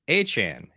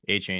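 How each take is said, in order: First: The last syllable sounds like 'chan'. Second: The last syllable sounds like 'chain'. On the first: This is how a broadcaster said it. "Jim Nance repeatedly said A Chan" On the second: This is how the speaker has always said it. "I've said A Chain basically the entire time"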